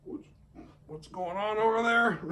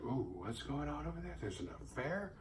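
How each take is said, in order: First: High, startled gasp of a question; pitched-up fake alarm; mock alarmed. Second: Soft, scandalised sitcom gasp; quiet, juicy sitcom snooping; sitcom gossip. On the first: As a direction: play the nosy, startled bystander. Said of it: "but she's not like". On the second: Pretend. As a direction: hush it like a Three's Company busybody. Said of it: "Three's Company shit where she's like".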